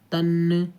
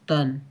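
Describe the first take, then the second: First: The final n bounces with an extra sound. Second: Breath and voice stop abruptly at the final n. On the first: The speaker calls it wrong. "तो ये चीज़ जो है गलत है" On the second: The speaker calls it right. "नून की आवाज़ आते ही आपको सांस और आवाज़ दोनों रोक देना है"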